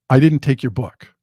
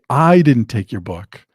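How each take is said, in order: First: The sentence is said with neutral, even stress. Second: The word "I" is said with strong stress. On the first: "a very simple example of saying" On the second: "it means that I didn't take it, but somebody else did"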